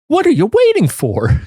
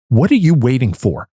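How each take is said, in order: First: It is said in a nicer, inviting tone. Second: It is said in an aggressive tone.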